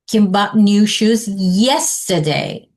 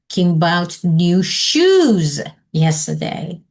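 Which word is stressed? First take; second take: yesterday; shoes. First: The stress falls on the word yesterday. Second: The stress falls on the word shoes. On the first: "Then you online yesterday and say, how do you say that?" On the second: "Or underline shoes"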